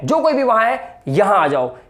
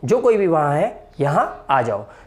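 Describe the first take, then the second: First: The sentence is said with strong emphasis. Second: The sentence is said in a plain, neutral way. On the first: Everyone there must come, without exception. "इसमें मैंने emphasise करके बोला है" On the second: Whoever is there should come. "एक normal बोलते हैं"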